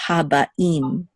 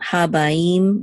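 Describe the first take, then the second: First: Habaim slowly, with a break before im; separated sounds. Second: Habaim with ba-im glided into "baim"; slurred together. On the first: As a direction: keep ba and im apart in Habaim. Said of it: "separate the sounds". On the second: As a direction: run the end of Habaim together, no catch. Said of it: "It's not Habaim". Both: Shown as a demonstration.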